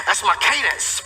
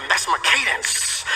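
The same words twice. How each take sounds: First: "That's my cadence" with weight moved onto "my"; stress on my. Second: "That's my cadence" slowed, weight on "That's"; slow emphatic declaration. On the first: Preacher claiming the rhythm as his own, stressing my. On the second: Preacher repeating the key line to the congregation, slow and weighty. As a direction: lean on "That's" and let "That's my cadence" land slowly. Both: Shown as a demonstration.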